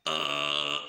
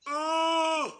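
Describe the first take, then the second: First: Deep growled uh; low guttural grunt. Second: High strained scream on uh. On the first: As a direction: drop into a low throat grunt. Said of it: "You combine that". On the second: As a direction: shoot the uh up into a tight scream. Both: Shown as a demonstration.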